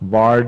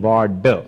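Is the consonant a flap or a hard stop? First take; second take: flap; hard stop. First: The middle consonant is a quick retroflex flap. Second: The middle consonant is a hard retroflex stop. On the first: The speaker calls it wrong. "ड़ नहीं बोलना" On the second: The speaker calls it right. "ड डर वाला बोलना"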